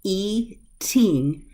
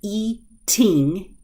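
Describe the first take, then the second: The two takes are said the same way.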